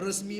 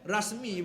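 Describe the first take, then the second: First: The first vowel is a weak e sound. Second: The first vowel is an open a sound. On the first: "resmi pun ya" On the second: "Rasmi pun ya"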